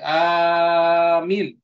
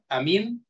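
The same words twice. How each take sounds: First: The first vowel is long, the second short. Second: Both vowels are short. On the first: It means a plea for protection. "panjang hamzahnya, mimnya pendek" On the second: It means safe. "hamzahnya tidak ada mad, mimnya tidak ada mad"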